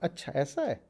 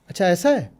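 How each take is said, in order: First: It is said with childlike wonder and amazement. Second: It is said calmly, in plain acceptance. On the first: The new information is a delightful surprise. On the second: The new information is simply accepted.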